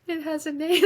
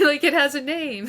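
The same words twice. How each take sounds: First: Put-on high, small child's voice, amazed; little girl. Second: Laughing. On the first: Five-year-old self realizing her feeling has a name, high childlike voice. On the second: Real, not acted. Telling her podcast host the story, laughing and louder. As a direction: repeat it through a real laugh, a bit louder.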